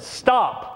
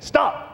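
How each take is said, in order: First: Firm command. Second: A higher, snapping Stop; sharper command. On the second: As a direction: bark Stop as a self-defense command. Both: Retold or imitated. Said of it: "I used my self-defense technique".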